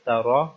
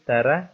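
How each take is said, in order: First: The R is pronounced thick and heavy. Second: The R is pronounced thin and light. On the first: The speaker calls it right. "बल्कि तारा मोटा करके पढ़ेंगे" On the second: The speaker calls it wrong. "इसको तारा नहीं पढ़ेंगे"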